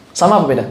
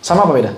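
The two takes are said the same way.

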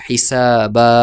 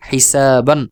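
First: হিসাবা with the n dropped, ending on a long open আ; pausal form. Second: Said in the usual way. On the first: Shown as a demonstration. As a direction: stop on হিসাবা, stretch the last vowel. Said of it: "ওয়াকফ করে পড়ি তাহলে হবে". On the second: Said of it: "উচ্চারণ করে পড়ি তাহলে হবে".

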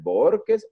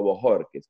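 First: "Borges" pronounced BOR-kes; first option, "Borges" as two-syllable BOR-kes; two-syllable surname option. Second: "Bojorques" pronounced bo-HOR-kes; second option, "Bojorques" as three-syllable bo-HOR-kes; three-syllable surname option. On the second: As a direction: offer "Bojorques" with stress on HOR. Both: Shown as a demonstration. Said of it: "dime cómo se pronuncia".

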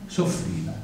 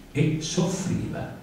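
First: Said in the usual way. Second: "soffriva" drawn out slowly, rising at the end; stretched suffering. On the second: Shown as a demonstration. Comic reciter mocking women who suffer, "soffriva" slow and drawn out. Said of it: "se apostrofa l'esse".

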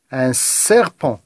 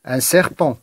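First: "serpent" slowly, with a long hissed initial s; stressed S sound. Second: Said in the usual way. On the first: Shown as a demonstration. Teacher helping pupils find the repeated sound, "serpent" with s held. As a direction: draw out the first s of "serpent". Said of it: "chercher le son qui se répète". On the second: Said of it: "Je reprends la lecture".

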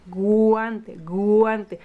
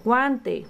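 First: "Guante" drawn out on its opening gu; stretched, stressed gu in "Guante, guante"; initial-sound emphasis. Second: Said in the usual way. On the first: Shown as a demonstration. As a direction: lean slowly on the first sound of "Guante". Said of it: "cuál es el primer sonido que escuchas". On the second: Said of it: "¿Cómo se llama esto?".

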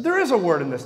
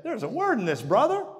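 First: "is" hit hard and loud; stress on IS. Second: High, lively quote of a friend; quoting an excited friend. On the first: Real, not acted. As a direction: lean on "is", loud. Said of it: "And I said". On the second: Retold or imitated. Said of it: "he said".

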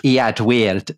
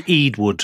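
First: Eadweard said like Edward; corrected name. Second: Eadwood read literally off the page; spelled-out misreading. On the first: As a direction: Eadweard pronounced "Ed-werd". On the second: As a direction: say Eadwood as the spelling looks, "Ead-wood". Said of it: "So it says E". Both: Shown as a demonstration.

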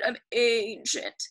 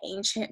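First: ANCIENT drawn out in a put-on old voice; slow, playful imitation of someone very old; old-sounding voice. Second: Said in the usual way. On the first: Shown as a demonstration. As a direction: stretch ANCIENT as if aged yourself. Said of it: "It makes me sound kind of old". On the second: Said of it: "I say it with that weird voice".

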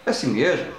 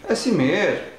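No difference in how they are said.

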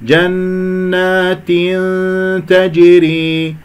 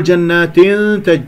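First: جنات تجري chanted slowly with a full kasra; sung, correct recitation. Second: جنات تج with the final "i" cut short into the hum; clipped kasra. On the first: Teacher models the right way, slow chanted جنات تجري with full kasra. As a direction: complete the "i" of جنات, then hold the hum. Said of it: "انتبهوا أحبتي في الله للصح". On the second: Teacher shows students the error, جنات with snatched kasra. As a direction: rush the kasra of جنات straight into the nasal n. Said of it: "هذا اختلاس للكسرة". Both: Shown as a demonstration.

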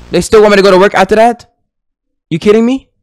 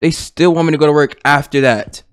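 First: Fast, high, rising disbelief; quick, raised-pitch incredulity; incredulous question. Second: Said in the usual way. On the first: Real, not acted. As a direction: fire it off as an outraged question. Disbelief at game's next task.

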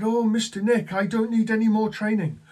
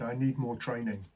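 First: High, loud, imitated elation; very happy. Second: Imitated glum trainee, a little subdued; mildly downcast, as if retelling his plea; sorrowful. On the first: Happy agent telling manager he's done with training, elated. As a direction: mimic a jubilant trainee. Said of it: "looking very happy, happy". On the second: New agent asking manager for training, sorrowful. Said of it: "looked at me all sorrowfully and said".

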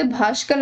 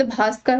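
First: भास्कर said with "sh" in the middle; hushing "sh" replacing स in भास्कर; wrong pronunciation. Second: भास्कर said with "s" in the middle; plain dental स in भास्कर; correct pronunciation. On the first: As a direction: say भास्कर as "bhaashkar". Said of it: "भास्कर अशुद्ध है". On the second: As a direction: say भास्कर as "bhaaskar". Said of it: "शुद्ध शब्द भास्कर होता है". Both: Shown as a demonstration.

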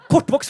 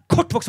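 First: Kortvokst punched high and loud as the proper term; mock correction. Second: Kortvokst even higher, a near squeal; repeated mock correction. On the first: Comedian loudly correcting his dwarf joke with Kortvokst. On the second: Comedian repeating Kortvokst higher for the crowd.

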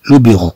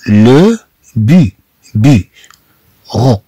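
First: Said in the usual way. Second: لو بي-، بي-، رو broken into slow separate syllables; split into syllables. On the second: Shown as a demonstration. Teacher breaking the word into syllables for learners. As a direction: spell out لو بيرو beat by beat, very slowly. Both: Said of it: "إذا نتكلم عن المكتب".

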